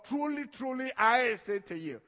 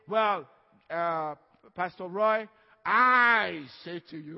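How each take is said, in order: First: "Truly, truly" lifted, then "I say to you" loud and firm; solemn divine declaration. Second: Slow, loud, drawn-out "Pastor Roy, I say to you" as a lightly voiced show-off; mock casual pastor. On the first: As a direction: proclaim it as God's own word. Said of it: "But this is God". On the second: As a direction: lightly parody a pompous pastor. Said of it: "I don't say". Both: Shown as a demonstration.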